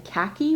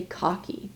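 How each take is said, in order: First: "khaki" with a short a, as in cat; American English "khaki", rhyming with tacky; American pronunciation of khaki. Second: "cocky" with an open ah in the first syllable; non-American pronunciation, "cocky"; khaki said as COCKY. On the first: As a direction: say "khaki" like KACK-ee. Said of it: "the American English pronunciation". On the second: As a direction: say "cocky", rhyming with rocky. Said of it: "I do say cocky". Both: Shown as a demonstration.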